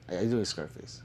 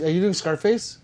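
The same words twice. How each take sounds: First: Softer, lower repeat of the question; low, falling murmured question; quiet repeat. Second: Rising, amused question; delighted rising question; surprised question. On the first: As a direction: drop your voice and ask again. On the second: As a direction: ask it with a lift of surprise. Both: Real, not acted. Asks chat twice, different tunes.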